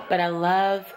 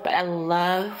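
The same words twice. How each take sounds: The two takes are said the same way.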